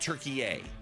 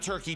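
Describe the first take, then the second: First: The name is said with three syllables. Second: The name is said with two syllables. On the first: The speaker calls it right. "Turkey yay" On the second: The speaker calls it wrong. "not Turkey"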